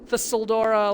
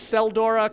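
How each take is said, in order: First: The name begins with a TH sound. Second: The name begins with an S sound. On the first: "like a T H sound" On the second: "completely silent T"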